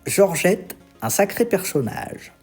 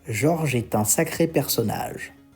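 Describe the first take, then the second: First: There is a pause right after the name. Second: It flows on without a pause after the name. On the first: A person named Georgette is called quite a character. "si j'essaie de le prononcer différemment, en disant Georgette, un sacré personnage" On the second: A man is described as quite a character. "selon si je fais une pause ou non"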